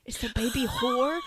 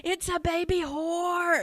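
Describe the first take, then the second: First: Said in the usual way. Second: Put-on high, loud, stretched-out kid yell; mock screaming little kid; imitated child's scream. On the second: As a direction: holler it slowly as a child's big announcement. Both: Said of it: "Screaming it, telling the other children".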